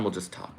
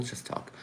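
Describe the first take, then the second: First: Said in the usual way. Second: Breathy resigned whisper of We'll just talk; whispered aside. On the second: Real, not acted. Filling time while stream fails.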